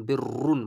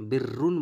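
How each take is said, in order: First: বিররুন with a thick, long r; full heavy r. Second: বিররুন with a light r and narrow i; wrong thin r. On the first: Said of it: "মোটা করার চেষ্টা করবেন". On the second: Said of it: "বিররুন বলবেন না". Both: Shown as a demonstration.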